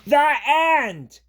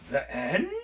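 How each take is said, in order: First: It is said excitedly, like an exclamation. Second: It rises at the end like a question.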